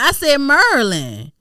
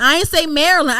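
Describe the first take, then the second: First: Maryland squeezed to two syllables, MUR-lin; local pronunciation. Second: Maryland in three syllables, MAIR-uh-lund; standard pronunciation. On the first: Insisting she is from P G County, Maryland as MUR-lin. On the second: Rejecting how outsiders say it, Maryland as MAIR-uh-lund. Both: Shown as a demonstration.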